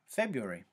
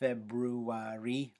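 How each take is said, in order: First: One of the similar syllables is dropped. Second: Both similar syllables are pronounced in full. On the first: "we drop one of those sounds" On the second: "we don't say February"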